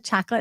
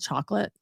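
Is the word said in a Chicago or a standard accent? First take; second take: Chicago; standard. First: The word is said in a Chicago accent. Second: The word is said in a standard accent.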